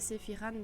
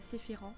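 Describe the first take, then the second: First: The last syllable has a plain non-nasal 'an'. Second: The last syllable has a French nasal vowel. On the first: "si vous préférez Sephiran" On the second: "en français, donc le A N se dit en"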